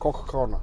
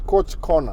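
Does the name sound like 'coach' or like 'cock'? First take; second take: cock; coach. First: The name is said like 'cock', a short o vowel. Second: The name is said like 'coach', a long o vowel. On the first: It follows the original European pronunciation. The speaker calls it right. "hiyo coach ni, ni cock" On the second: It is read the way Swahili spelling suggests. The speaker calls it wrong. "Ukisoma Kiswahili unasema coach"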